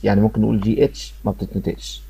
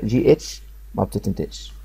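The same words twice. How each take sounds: First: Said in the usual way. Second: جي اتش ما بتتنطقش said slowly and softer, word by word; slow choral repeat. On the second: Shown as a demonstration. Teacher leading students to repeat the rule together, slow and soft. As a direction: lead the class through it slowly, syllable by syllable. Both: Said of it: "نقولها مع بعض كده".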